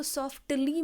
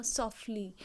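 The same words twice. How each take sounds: First: The mistaken way, सॉफ्टली with an audible T; wrong pronunciation. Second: सॉफ्टली said as soffly, T dropped; silent T. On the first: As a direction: say सॉफ्टली pronouncing the T clearly. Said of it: "इसको सॉफ्टली मत बोलना". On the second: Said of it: "टी silent ही है". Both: Shown as a demonstration.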